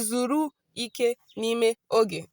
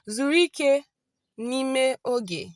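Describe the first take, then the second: First: The first two words are said separately. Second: The first two words run together as one. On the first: The speaker calls it wrong. "you don't say Zuru Ike Nime Oge" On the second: The speaker calls it right. "You join the Zuri and Ike together"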